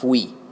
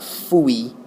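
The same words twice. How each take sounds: First: The word is one syllable, like 'f' plus 'we'. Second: The word is split into two separate syllables. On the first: The speaker calls it right. "put an F in front of the word we, and you get fui" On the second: The speaker calls it wrong. "It's not fui, like ah fui"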